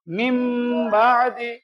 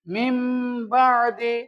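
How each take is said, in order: First: The first word ends with an 'm' sound. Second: The same.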